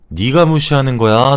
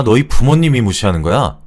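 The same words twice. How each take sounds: First: Accusing question leaning on 네가, rising at the end; stress on 네가. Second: Accusing question leaning on 부모님이, falling at the end; stress on 부모님이. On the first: Brother confronts sister's boyfriend, stressing 네가 as an accusation. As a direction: put the weight on 네가 and lift the ending. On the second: Brother blames boyfriend's family, stressing 부모님이 as an accusation. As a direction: hit 부모님이, then let the ending drop. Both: Acted.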